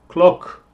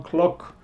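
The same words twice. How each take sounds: First: Said in the usual way. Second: Clock with an open o, said softly and precisely; careful model word. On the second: Shown as a demonstration. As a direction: model clock slowly for learners to copy. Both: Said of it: "Escucha la pronunciación".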